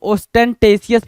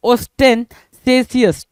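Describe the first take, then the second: First: "ostentatious" with a hard t starting the third syllable; "-tesius" pronunciation. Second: "ostentatious" with an s sound starting the third syllable; "-sesius" pronunciation. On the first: Teacher shows how some others read it, "ostentatious" said os-ten-tay-see-us. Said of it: "कुछ लोग ostentatious भी पढ़ते हैं". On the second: Teacher shows students one reading of the word, "ostentatious" said os-ten-say-see-us. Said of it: "सेसियस पढ़ते हैं इसको". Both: Shown as a demonstration.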